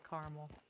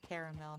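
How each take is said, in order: First: The vowel after the first syllable is dropped. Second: The vowel after the first syllable is pronounced. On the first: "not caramel" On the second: "We pronounce that first A caramel"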